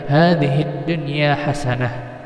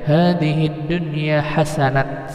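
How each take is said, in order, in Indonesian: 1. Kata terakhir berakhir dengan bunyi h. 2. Kata terakhir berakhir dengan bunyi t. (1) "yang benar hadhid dunya hasanah" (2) "Jangan dibaca hadhid dunya hasanat, salah ya"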